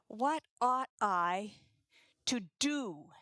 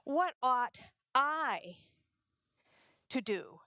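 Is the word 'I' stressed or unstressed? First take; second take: unstressed; stressed. First: The word 'I' is not stressed. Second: The word 'I' is stressed. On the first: The question is about which act is right. "where the focus is on what the right act is" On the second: The question is about what this particular person should do. "what you would consider your duty, and what I would consider my duty might not always coincide"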